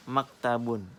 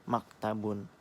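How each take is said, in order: First: Maktabun said clearly, ending sound distinct; clear dictation. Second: Said in the usual way. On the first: Shown as a demonstration. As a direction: say maktabun so students catch the last letter. (ucapkan maktabun dengan jelas) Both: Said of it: "Apa yang kalian dengar".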